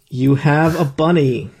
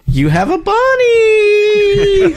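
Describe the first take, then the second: First: It is said flatly, with little energy. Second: It is said excitedly, with lots of energy. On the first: The speaker calls it wrong. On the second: The speaker calls it right.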